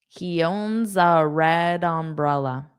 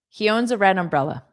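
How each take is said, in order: First: The sentence is said at a moderate pace. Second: The sentence is said quickly.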